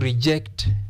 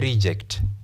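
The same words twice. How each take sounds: First: The stress is on the second syllable. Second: The stress is on the first syllable. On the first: It is a verb. "If it is used as a verb, we stress the second syllable" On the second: It is a noun. "if a word is used as a noun, we stress the first syllable"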